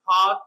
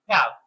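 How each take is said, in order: First: It is said with a British accent. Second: It is said with an American accent.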